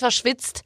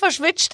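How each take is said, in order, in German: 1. Die Endung wird mit einem 'ts'-Laut gesprochen. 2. Die Endung wird mit einem 'sch'-Laut gesprochen. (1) "es ist verschwitzt, weil die, es ist ja kein ST und nur das ST wird ja zum Sch" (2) "es ist nicht verschwitzt"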